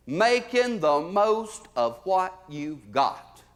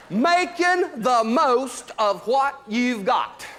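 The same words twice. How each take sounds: First: Slow motto. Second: Slow, high, loud shout of the motto. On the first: First take of motto. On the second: Comic to audience, shouting the motto slowly. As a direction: belt it out like a rallying cry. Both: Acted.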